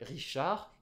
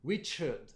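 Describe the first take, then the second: First: The name is said with a French pronunciation. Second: The name is said with an English pronunciation. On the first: "en français" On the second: "en anglais"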